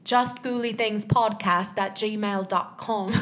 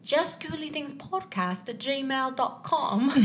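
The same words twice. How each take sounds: First: Slow, mumbled British accent attempt; marbles in mouth British accent. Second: Slow, laughing British accent attempt. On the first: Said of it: "There's, like, marbles in your mouth". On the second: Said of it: "can I do this in a British accent?".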